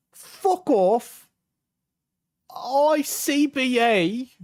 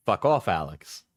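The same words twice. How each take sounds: First: Loud, high, incredulous mock British accent; put-on accent. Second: Said in the usual way. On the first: Got this after saying "I'm sad", high mock British accent. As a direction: echo it back in outraged, hammed-up British. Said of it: "when I'm doing the accent".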